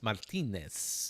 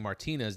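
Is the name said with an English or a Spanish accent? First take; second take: Spanish; English. First: The name is said with a Spanish accent. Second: The name is said with a plain English accent. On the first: "go into the Spanish accent for some reason when you're saying their name" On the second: "instead of saying Martinez"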